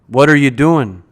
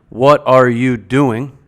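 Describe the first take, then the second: First: The words are shortened and run together. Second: Every word is said in its full form. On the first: "can be and often is reduced to" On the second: "So the question"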